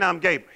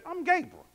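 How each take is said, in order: First: It is said plainly, without attitude. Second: It is said with attitude and indignation.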